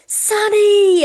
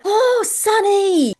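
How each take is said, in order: First: Very high, much louder joyful shout of a name; excited shout. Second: High, loud delighted cry of a name; excited call. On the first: Stranger calling across the coffee shop, thrilled shout. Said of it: "Like, she went". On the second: Stranger spotting her online idol across an open café, excited call. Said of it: "she stopped and she went". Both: Retold or imitated.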